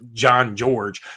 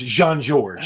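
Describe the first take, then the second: First: The name is said with a plain American pronunciation. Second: The name is said with a French pronunciation. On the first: "It's probably John George" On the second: "very French"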